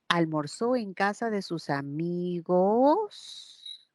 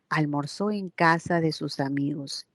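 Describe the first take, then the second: First: The pitch rises at the end. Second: The pitch falls at the end. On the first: It is a question. "ahí sí hubiese sido ascendente" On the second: It is a statement. "inflexión tonal hacia abajo"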